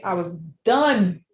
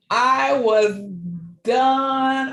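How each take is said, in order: First: Said in the usual way. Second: Louder, higher repeat, leaning on done; emphatic repeat. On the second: Real, not acted. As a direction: hit done hard the second time. Retelling breaking down in hospital.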